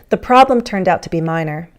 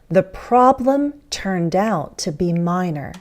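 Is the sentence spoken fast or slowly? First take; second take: fast; slow. First: The sentence is spoken quickly and run together. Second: The sentence is spoken slowly and carefully. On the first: "fast speech" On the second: "More slowly, more carefully"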